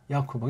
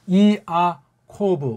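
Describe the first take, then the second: First: The opening vowels are merged into one syllable. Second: The opening vowels are split into two syllables. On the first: The speaker calls it wrong. "야코브가 뭡니까?" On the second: The speaker calls it right. "이 야는 두 개 음절이고"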